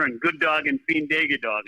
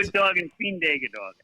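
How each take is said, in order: First: "good dog and fiend dog" said as Norwegian "god dag og fin dag", at normal pace; Norwegian greeting. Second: "Good dog and fiend dog" spelled out slowly as Norwegian "god dag og fin dag"; Norwegian phrase, slowly. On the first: Retold or imitated. Coach greets the host with a Norwegian phrase, said quickly in passing. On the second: Shown as a demonstration. Coach repeats the Norwegian greeting for the host, slow and deliberate. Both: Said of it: "That's Norwegian".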